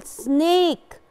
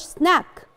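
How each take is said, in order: First: Slow سنيك with a drawn-out "ay"; سنيك, long vowel held slowly. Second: سناك with a short "a", as in snack; the wrong short-vowel take, سناك. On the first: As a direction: stretch سنيك into "snaaayk". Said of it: "it's a long vowel as we said". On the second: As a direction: say سناك as "snak", not "snayk". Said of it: "ما بقولش سناك". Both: Shown as a demonstration.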